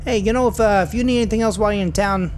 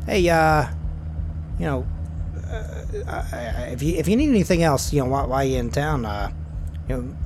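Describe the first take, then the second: First: Put-on higher, louder character accent; Terry's corrected accent. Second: Put-on hesitant first try at Terry's accent; halting, off-target character accent; wrong accent for Terry. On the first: Driver Terry offering help to Garth, in his proper accent, higher and louder. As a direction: push the driver's accent up, loud and chatty. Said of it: "sorry, I'm doing the wrong accent". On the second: Driver Terry dropping Garth off, in a mistaken accent. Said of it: "I'm doing the wrong accent".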